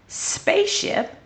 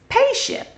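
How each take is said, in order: First: The word begins with an s sound. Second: The word begins with a p sound. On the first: The speaker calls it right. "Number one is spaceship" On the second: The speaker calls it wrong. "Number two is payship"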